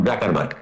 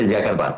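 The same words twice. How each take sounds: First: জাকারবার্গ said with a hard J at the start; জাকারবার্গ with a J opening; wrong pronunciation. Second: ইয়াকারবার্গ said with a Y sound at the start, not J; correct pronunciation. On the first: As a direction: say জাকারবার্গ the usual way, beginning with জা. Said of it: "not জাকারবার্গ". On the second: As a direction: say ইয়াকারবার্গ beginning with ইয়া. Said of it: "actual উচ্চারণ হচ্ছে ইয়াকারবার্গ". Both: Shown as a demonstration.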